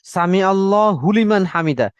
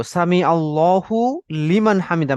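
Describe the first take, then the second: First: "হু" of "আল্লাহু" runs straight into "লিমান"; merged mispronunciation. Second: Slow "আল্লাহু", then a separate "লিমান"; careful pronunciation. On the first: Retold or imitated. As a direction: imitate the learnt mistake, "আল্লা হুলিমান". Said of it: "হাটা এসে লামের সাথে যেন একবারে মিলে যাচ্ছে". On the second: Shown as a demonstration. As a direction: complete "আল্লাহু" before starting "লিমান". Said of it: "আমরা এটা খুব কেয়ারফুলি উচ্চারণ করব".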